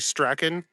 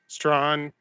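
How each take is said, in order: First: The name is said with two syllables, 'Strachan'. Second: The name is said as one syllable, 'Strawn'. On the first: This is how it is said in the UK. "U K would be Strachan" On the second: This is how locals say it. "we pronounce it Strawn here"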